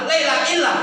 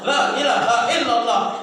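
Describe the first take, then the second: First: Syllables are dropped and run together. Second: Every syllable of the phrase is clearly pronounced. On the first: The speaker calls it wrong. "Jangan laila illah" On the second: The speaker calls it right.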